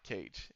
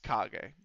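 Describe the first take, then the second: First: The name sounds like the English word 'cage'. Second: The name does not sound like 'cage'. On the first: The speaker calls it wrong. "it's actually not Cage" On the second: The speaker calls it right. "It's Kage"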